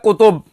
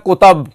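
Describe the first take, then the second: First: The second syllable has a 'u' vowel. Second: The second syllable has an 'a' vowel. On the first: The speaker calls it right. "एक लफ्ज है" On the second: The speaker calls it wrong. "हजरत उसको पढ़ते हैं"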